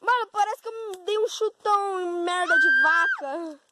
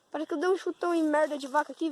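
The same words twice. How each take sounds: First: High, loud exclaiming; excited shout. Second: Said in the usual way. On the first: Real, not acted. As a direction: shout it out in disgust. Describing muddy foot, still shouting.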